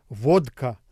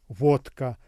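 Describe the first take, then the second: The two takes are said the same way.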